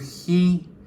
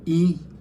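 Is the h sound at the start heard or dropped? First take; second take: heard; dropped. First: The h sound is clearly pronounced. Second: The h sound is left out. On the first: "En igual de decir he" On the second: "digo he"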